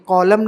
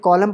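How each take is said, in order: First: The final n sound is pronounced. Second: The final n sound is silent. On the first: The speaker calls it wrong. "नहीं" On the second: The speaker calls it right. "एन silent रहेगा"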